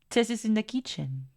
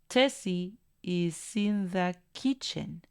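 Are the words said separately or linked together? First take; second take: linked; separately. First: The small words are reduced and linked together. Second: Each word is said separately without linking.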